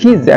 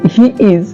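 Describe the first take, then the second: First: It is said joined together as one syllable. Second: It is said as two separate full words.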